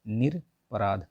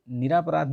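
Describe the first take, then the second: First: निरपराध drawn out slowly with a short र, no आ; slow correct word. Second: निरापराध with the long आ after र, stressed as the mistake; teacher shows निरापराध as the wrong form. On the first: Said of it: "निरपराध होता है". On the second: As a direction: say निरापराध with a long रा to show the error. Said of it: "ये निरापराध नहीं होता है". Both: Shown as a demonstration.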